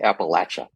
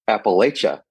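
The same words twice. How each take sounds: First: It is said in a Southern way. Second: It is said in a non-Southern way.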